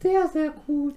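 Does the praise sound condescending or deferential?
deferential. The praise sounds deferential, looking up. The speaker looks up to the listener. "Von unten herauf"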